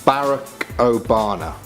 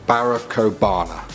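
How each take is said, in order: No difference in how they are said.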